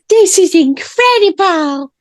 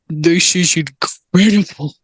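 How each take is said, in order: First: It is said in a put-on boy character's voice. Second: It is said without the boy character's voice. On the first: The speaker calls it right. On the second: The speaker calls it wrong.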